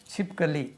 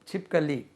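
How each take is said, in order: No difference in how they are said.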